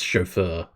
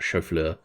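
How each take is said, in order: First: Chauffeur as "show-FUR", no L sound; chauffeur said correctly. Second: Chauffeur as "show-FLUR", L slipped in; mispronounced chauffeur. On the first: Streamer correcting own French slip, chauffeur pronounced show-fur. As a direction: say chauffeur with a plain F, no L. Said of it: "I realise that's chauffeur". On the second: Streamer quoting own French slip, chauffeur mispronounced show-flur. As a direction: say chauffeur like chou-fleur, with FL. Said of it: "not chauffeur". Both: Shown as a demonstration.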